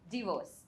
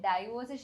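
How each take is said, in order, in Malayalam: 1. ആദ്യ സ്വരം 'dih' പോലെ തോന്നുന്നു. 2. ആദ്യ സ്വരം 'die' പോലെ തോന്നുന്നു. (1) "ഇറ്റ് ഇസ് ഡിവോഴ്സ്" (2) "ഡൈവോഴ്സ് ശരിയല്ല"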